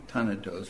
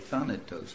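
First: The word is pronounced the German way. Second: The word is pronounced the English way. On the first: "In German it would be Thanatos" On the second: "but in English we say Thanatos"

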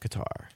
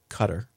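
First: The word does not sound like 'cutter'. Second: The word sounds like 'cutter'. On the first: The speaker calls it right. "You'll notice that I said Qatar that time" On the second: The speaker calls it wrong. "this underwriting insisted was pronounced Cutter"

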